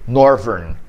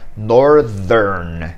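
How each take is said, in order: First: The middle consonant is a v sound. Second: The middle consonant is a th sound.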